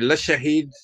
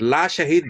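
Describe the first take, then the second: First: The first vowel is short, not stretched. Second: The first vowel is stretched out long. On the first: He is a witness to it. The speaker calls it right. "he witnessed that" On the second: There is no witness. The speaker calls it wrong. "there is no witness"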